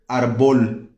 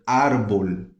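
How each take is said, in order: First: The stress is not on the first syllable. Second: The stress is on the first syllable. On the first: The speaker calls it wrong. "mas eu já ouvi gente falando arbol" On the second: The speaker calls it right. "Árbol tem um acento no A"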